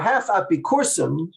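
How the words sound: It is said in an imitated Turkish-style accent.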